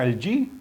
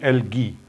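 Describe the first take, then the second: First: The middle consonant is a soft j sound. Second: The middle consonant is a hard g sound. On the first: "इस word को in fact दो तरीके से pronounce किया जाता है" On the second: "दोनों प्रोनाउंसिएशंस सही हैं"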